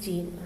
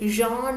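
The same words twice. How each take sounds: First: The name is said with an English pronunciation. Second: The name is said with a French pronunciation. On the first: "we'll say for convenience Jean" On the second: "they pronounce it differently, Jean or something, that is the right pronunciation"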